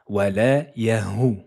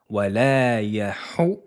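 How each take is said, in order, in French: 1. Le h est un son h simple et léger. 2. Le h est un son fort et soufflé venant de la gorge. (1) "Il ne faut pas confondre et ne pas dire wala yahu hu" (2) "Mais plutôt wala yahu"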